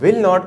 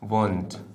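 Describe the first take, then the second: First: It is said as two separate full words. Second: It is contracted to one word, won't. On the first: "विल नॉट को" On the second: "बल्कि कहते हैं वोंट"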